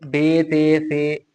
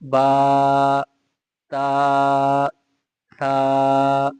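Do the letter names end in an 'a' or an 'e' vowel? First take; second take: e vowel; a vowel. First: The letter names end in an 'e' vowel. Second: The letter names end in an 'a' vowel. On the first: The speaker calls it wrong. "बे ते से नहीं पढ़ेंगे, उर्दू की तरह नहीं पढ़ेंगे" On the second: The speaker calls it right. "अरबी की तरह पढ़ेंगे। ... ऐसे पढ़ा जाएगा"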